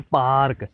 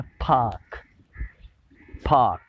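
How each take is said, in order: First: पार्क with the r sounded; r pronounced. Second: पार्क with a silent r, long aa; British pronunciation. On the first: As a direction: say पार्क the usual local way with r. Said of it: "हम लोग बड़ी खुशी से कहते हैं पार्क". (पार्क आर के साथ) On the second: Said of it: "British वाले जो कहते हैं वो कहते हैं". (ब्रिटिश अंदाज़ में पार्क, आर ख़ामोश) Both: Shown as a demonstration.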